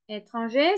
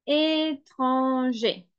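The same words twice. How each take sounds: First: Said in the usual way. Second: "étranger" stretched out syllable by syllable; slow dictation. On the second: Shown as a demonstration. Teacher dictating "étranger" to learners, slow syllable-by-syllable delivery. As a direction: draw "étranger" out very slowly. Dictates word slowly, then repeats normally.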